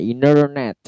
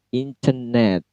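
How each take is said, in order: First: American accent: dropped t and a clear r. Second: British accent: clear t and a weak r. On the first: "C-nya hilang ya" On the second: "Kalau British, T-nya jelas"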